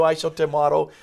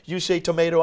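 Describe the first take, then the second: First: "tomato" said to-MAH-to, higher pitched. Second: "tomato" said to-MAY-to, higher and lively. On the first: Host quoting the old saying to shrug off a difference, "tomato" as to-MAH-to. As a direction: say "tomato" with a broad AH in the middle. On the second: Host quoting the old saying to shrug off a difference, "tomato" as to-MAY-to. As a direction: say "tomato" with a long AY in the middle. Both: Acted. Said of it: "So they might say".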